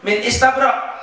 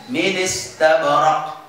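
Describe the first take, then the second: First: Said in the usual way. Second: Slow "Min istabrak" as mi-nis-tabrak; joined recitation. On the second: Shown as a demonstration. Teacher answers how to read it, slow and joined. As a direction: link n into i of "istabrak", no glottal stop. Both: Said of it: "maka baca gimana?".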